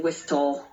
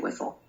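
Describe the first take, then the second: First: The T sound in the middle is pronounced. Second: The T sound in the middle is silent. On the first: The speaker calls it wrong. "Whistle has a T, but we don't say whistle" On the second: The speaker calls it right. "We say whistle"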